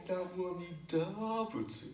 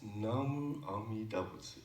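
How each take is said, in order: First: "Namu Amida Butsu" high, with DA stretched; high-pitched wrong-way demo, big DA in "Amida"; stress on da. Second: Said in the usual way. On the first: Shown as a demonstration. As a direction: mimic the mistake, leaning on "da" of "Amida". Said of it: "Now you're saying". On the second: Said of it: "It's just".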